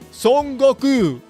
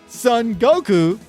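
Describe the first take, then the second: First: It is said with a native Japanese accent. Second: It is said with an English speaker's accent. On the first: The speaker calls it right. "I say Son Goku" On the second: The speaker calls it wrong. "that would sound really cringe in Japanese"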